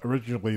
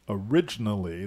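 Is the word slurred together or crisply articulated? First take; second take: slurred; crisp. First: The syllables are slurred together. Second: Each syllable is crisply articulated. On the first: The speaker calls it wrong. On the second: The speaker calls it right.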